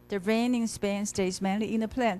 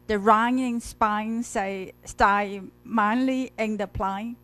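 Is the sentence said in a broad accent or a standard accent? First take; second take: standard; broad. First: It is said in a standard, careful accent. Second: It is said in a broad, nonstandard accent. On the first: The speaker calls it right. "and then she literally corrected" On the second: The speaker calls it wrong. "Originally, she pr- pronounces as"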